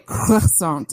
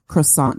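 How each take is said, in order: First: It is said with a French-style pronunciation. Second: It is said with a plain English pronunciation. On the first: The speaker calls it wrong. "the people who say croissant" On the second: The speaker calls it right. "instead of croissant"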